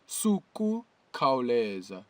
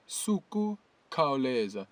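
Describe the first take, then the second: No difference in how they are said.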